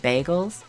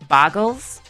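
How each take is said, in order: First: The first syllable sounds like 'bay'. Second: The first syllable sounds like 'bar'. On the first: This is the usual way to say it. The speaker calls it right. "why he doesn't just say bagels" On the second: Someone else says it this way. The speaker calls it wrong. "how Northern Line says bargles"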